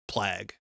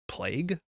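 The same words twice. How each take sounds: First: Plague. said "plag", short a as in plaque; his own pronunciation. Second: Plague? said "playg" with a long a, tentative rise; standard pronunciation. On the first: Streamer preferring his own version to chat, "plag" with short a. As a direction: settle on the Alberta "plag". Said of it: "Doesn't that sound better?". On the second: Streamer testing the correct form for chat, questioning "playg". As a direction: try the standard "playg" doubtfully. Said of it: "first one sounds worse". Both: Shown as a demonstration.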